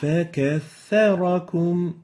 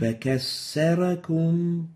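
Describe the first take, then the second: First: The doubled consonant is a th sound. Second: The doubled consonant is an s sound. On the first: The speaker calls it right. "the right way of pronouncing it" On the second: The speaker calls it wrong. "sin instead of the tha. This is wrong"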